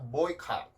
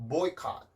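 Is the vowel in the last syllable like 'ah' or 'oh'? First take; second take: ah; ah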